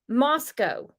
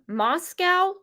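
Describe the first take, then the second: First: It is said differently from the Russian city. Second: It is said like the Russian city's name. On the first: "I heard it pronounced" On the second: "like in Russia?"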